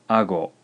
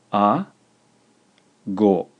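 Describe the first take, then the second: First: Said in the usual way. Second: A and go split by a long pause; measured dictation, syllables held apart; slow, syllable by syllable. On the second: Shown as a demonstration. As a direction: dictate A, then go, each syllable alone. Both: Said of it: "slowly a couple times".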